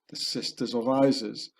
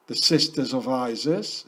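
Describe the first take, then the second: First: The Sisters of Isis. stated with a falling tune on Isis; falling statement. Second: The Sisters of Isis? asked with a rising tune on Isis; questioning rise. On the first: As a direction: settle it as a conclusion, pitch dropping on Isis. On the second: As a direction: pose it as a puzzled question, pitch going up on Isis. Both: Shown as a demonstration.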